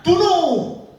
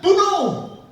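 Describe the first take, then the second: First: Loud, higher, barked command; king repeating his death sentence; shouted order. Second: Loud, higher, barked command; king condemning the priests; shouted order. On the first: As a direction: shout the kill order again. Saul orders execution again. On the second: Saul orders execution. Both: Acted.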